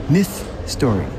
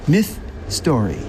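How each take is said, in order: Both takes have the same delivery.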